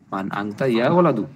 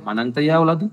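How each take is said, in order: First: Said in the usual way. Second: "মান আংতা ইয়া ওয়ালাদু?" with the pitch rising on ওয়ালাদু at the end; asking as a question. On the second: Shown as a demonstration. Teacher showing students the question tone, ending on a rising ওয়ালাদু. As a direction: ask it, lifting ওয়ালাদু as a true question. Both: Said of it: "প্রশ্নের ভাব নিয়ে বলতে হবে".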